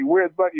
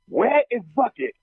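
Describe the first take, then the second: First: Where is is contracted into one syllable. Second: Where and is are enunciated separately. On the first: This is how people normally talk. The speaker calls it right. "normally you would say" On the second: The line is delivered stiffly, exactly as written. The speaker calls it wrong. "He said it the way it was written"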